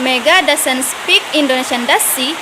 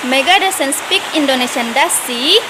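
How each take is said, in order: First: "does she" drops, just confirming; falling tag intonation. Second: "does she" lifts at the end, unsure; rising tag intonation. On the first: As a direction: let "she" fall as if already sure. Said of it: "disebut sebagai falling intonation". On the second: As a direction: let "she" climb like a real question. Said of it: "disebut sebagai rising intonation". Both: Shown as a demonstration.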